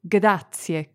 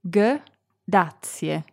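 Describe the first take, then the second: First: It is said quickly. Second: It is said slowly.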